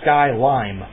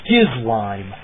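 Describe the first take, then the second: First: It starts with sky and ends with lime. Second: It starts with skiz and ends with lime. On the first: This is a compromise between the two readings. "splitting the difference" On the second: This is how the name is actually spelled. "that's what it actually is"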